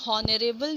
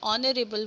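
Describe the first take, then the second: First: The word starts with an audible h sound. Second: The word starts with a vowel, h silent. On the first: The speaker calls it wrong. "हम लोग हॉनरेबल नहीं बोलते हैं" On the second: The speaker calls it right. "हम लोग ऑनरेबल बोलते हैं"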